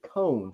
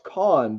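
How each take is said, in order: First: The vowel is long, rhyming with 'own'. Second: The vowel is short, rhyming with 'on'. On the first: This is how others say it. The speaker calls it right. "I've heard people on videos pronounce it cone, so I'm assuming that that is correct" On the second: This is how the speaker first assumed it was said. The speaker calls it wrong. "I thought it was pronounced con"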